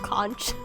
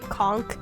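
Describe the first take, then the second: First: It ends with a ch sound. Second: It ends with a k sound. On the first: The speaker calls it right. "it's clearly a C H" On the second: The speaker calls it wrong. "Why are you making a K sound?"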